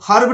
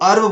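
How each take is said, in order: First: It starts with an h sound. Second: It starts with a vowel, no h. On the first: The speaker calls it wrong. "इसको हर्ब नहीं बोलना है" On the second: The speaker calls it right. "इसको अर्ब बोलना है"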